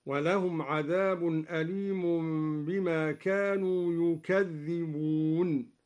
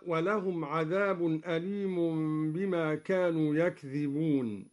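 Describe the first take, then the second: First: يكذبون as yukadhdhiboon with a doubled dhal; Duri reading. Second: يكذبون as yakdhiboon; light single dhal in يكذبون; standard recitation. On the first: Teacher showing students al-Duri's يكذبون. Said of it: "بضم الياء وفتح الكاف وتشديد الذال، هكذا". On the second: Teacher reciting يكذبون in the standard form. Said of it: "قرأ الدوري بضم الياء وفتح الكاف وتشديد الذال". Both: Shown as a demonstration.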